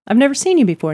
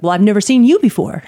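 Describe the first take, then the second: First: Said in the usual way. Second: Mock retort, "you" raised and louder; combative stress on YOU. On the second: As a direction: fire it back, punching the word "you". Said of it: "It was, like, combative".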